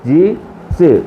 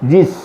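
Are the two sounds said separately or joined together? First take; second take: separately; joined. First: The two sounds are said separately with a break. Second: The two sounds are joined into one syllable. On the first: The speaker calls it wrong. "ഇനി ആദ്യം പോലെ പറയാണ്" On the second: The speaker calls it right. "രണ്ട് അക്ഷരങ്ങൾ തമ്മിൽ ചേർത്ത് പറയുമ്പം"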